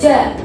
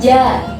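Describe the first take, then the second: First: The j sound is said hard, without softness. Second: The j sound is said softly and gently. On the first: The speaker calls it wrong. "nggak boleh ja, jajan, ja itu nggak boleh" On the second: The speaker calls it right. "Harus ada lembut-lembutnya"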